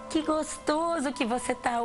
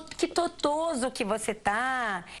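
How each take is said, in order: First: The word starts with a clear g sound. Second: The word starts with a t sound instead. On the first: The speaker calls it right. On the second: The speaker calls it wrong.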